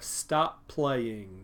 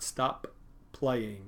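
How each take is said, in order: First: The two P sounds merge into one P. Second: Both P sounds are pronounced separately. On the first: The speaker calls it right. "These P's go together to make one P" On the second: The speaker calls it wrong.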